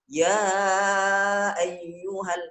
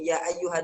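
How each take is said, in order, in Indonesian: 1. Vokal panjang itu dipanjangkan jauh lebih lama. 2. Vokal panjang itu hanya dibaca sebentar. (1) "nah dibacanya isba, lebih panjang lagi" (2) "ya ayyuha digasar, uh, dia dilanjutkan"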